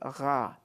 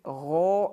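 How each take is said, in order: First: The syllable has a thin, light vowel. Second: The syllable has a full-mouthed, heavy vowel. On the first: The speaker calls it wrong. "and not gha" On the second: The speaker calls it right. "Fatha muqaddara makes it gho"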